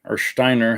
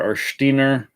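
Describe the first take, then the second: First: Steiner said as SHTY-ner; alternative pronunciation. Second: Steiner said as SHTEE-ner; German-style pronunciation. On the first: Reviewer tries the name again, Steiner as SHTY-ner. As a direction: say Steiner with SHT and the vowel of eye. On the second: Reviewer tries the model's name, Steiner as SHTEE-ner. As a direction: say Steiner with SHT and a long EE. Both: Shown as a demonstration. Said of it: "however you wanna say it".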